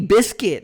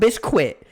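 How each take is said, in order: First: The second syllable sounds like 'kit'. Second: The second syllable sounds like 'quit'. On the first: The speaker calls it right. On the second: The speaker calls it wrong.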